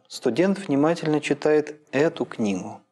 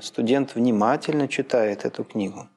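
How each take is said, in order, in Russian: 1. Главное ударение падает на слово «эту». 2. Главное ударение падает на слово «внимательно». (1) "когда логическое ударение начинает переползать с конца фразы" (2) "Еще левее"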